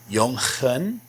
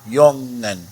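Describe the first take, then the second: First: The g is a rough throaty h sound. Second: The ng sounds like English ng. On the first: The speaker calls it wrong. "Didn't you just teach that the G is more like a rough H? Shouldn't this be pronounced Jungen?" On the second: The speaker calls it right. "The N G here is just like the N G in English"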